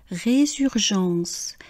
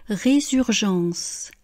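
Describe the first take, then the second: No difference in how they are said.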